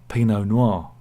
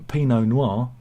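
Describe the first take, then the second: The two takes are said the same way.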